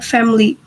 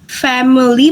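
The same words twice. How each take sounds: First: No vowel is heard between m and l. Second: A short vowel is heard between m and l. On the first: The speaker calls it right. "The schwa in here is deleted" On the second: The speaker calls it wrong. "It doesn't pronounce as family"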